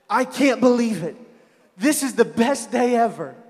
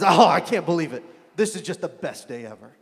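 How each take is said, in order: First: It sounds genuinely happy and excited. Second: It sounds bitter and sarcastic.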